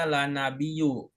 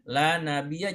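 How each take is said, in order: First: The noun ends with a u vowel. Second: The noun ends with an a vowel. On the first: The speaker calls it wrong. "jangan dibaca la nabiyu" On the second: The speaker calls it right. "Karena nafiyah lil jinsi harus fathah"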